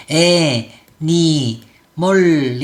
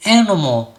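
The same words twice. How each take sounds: First: 애, 니, 멀 slowly as separate full syllables; syllable-by-syllable reading. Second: Animal as AN-uh-mul, only the start stressed; English schwa pronunciation. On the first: Teacher showing the rule-following reading, slow separate 애, 니, 멀. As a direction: stretch 애-니-멀 evenly. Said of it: "이렇게 하면은 그냥 편하고". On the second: Teacher asking why natives reduce, schwa-reduced animal. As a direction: stress animal's first vowel, reduce the others. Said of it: "이렇게 소리를 낼까". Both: Shown as a demonstration.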